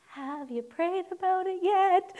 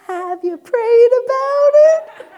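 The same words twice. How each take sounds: First: Lightly voiced sweet mom, higher; a hint of a sing-song mother; mom's sweet question. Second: High, loud, slow teasing echo of mom; hammed-up mock of mom's pious question; mocking mom's line. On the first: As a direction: mimic mom's gentle pious nudge. Mom's original line. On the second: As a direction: throw mom's words back at her, sing-song. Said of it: "come back with the".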